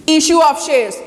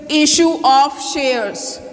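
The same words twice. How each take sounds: First: Said in the usual way. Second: Slow emphasis. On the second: Shown as a demonstration. Teacher drilling a term to students, slow and deliberate. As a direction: issue of shares said slowly, leaning on issue. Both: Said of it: "we have studied this".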